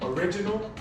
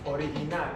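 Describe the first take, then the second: First: It is pronounced with English sounds. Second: It is pronounced with Spanish sounds. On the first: "I'm going to pronounce it in English first" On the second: "and then I'm going to pronounce it in Spanish"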